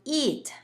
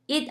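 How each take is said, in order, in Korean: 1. 이 모음은 입을 옆으로 찢은 상태에서 길게 냅니다. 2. 이 모음은 짧고 이완되어 있습니다.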